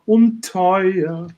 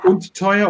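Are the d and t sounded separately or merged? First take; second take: merged; separately. First: The d and t merge into one consonant. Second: The d and t are sounded separately. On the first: The phrase sounds more romantic. "you you have only to take one uh, consonant" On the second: The phrase is given great expression. "you have to take und and t uh, divided"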